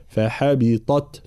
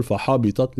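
First: Slow فحبطت, light ح, heavy ط, light ت; careful فحبطت ending on a light ت; correct tajweed. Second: فحبطت said quick and slurred, ط and ت not set apart; a hurried wrong فحبطت; فحبطت without the heavy ط; wrong tajweed. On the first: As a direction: spell out فحبطت slowly, ط thick and ت thin. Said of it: "لابد من تفخيم الطاء وترقيق التاء". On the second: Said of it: "لا نقول". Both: Shown as a demonstration.

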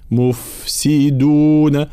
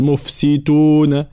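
First: "مفسدون" slowly with drawn-out f, voiced d; flowing fa. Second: "مفسدون" slowly as "mufsituna"; dal turned ta. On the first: Teacher showing the correct word, "مفسدون" with prolonged f. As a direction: let "ف" flow in "مفسدون". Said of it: "لابد من بيان رخاوة". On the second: Teacher showing the mistake, "مفسدون" with t for d. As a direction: devoice the "د" of "مفسدون" to t. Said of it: "ثم الدال، لا نقول". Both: Shown as a demonstration.

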